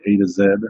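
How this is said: It is said with a British accent.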